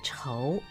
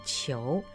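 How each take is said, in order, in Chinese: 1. 这个字读 chóu，就是仇恨的仇。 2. 这个字读 qiú，是姓氏的读音。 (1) "就是仇恨的仇" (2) "但是当姓氏的时候一定要念仇"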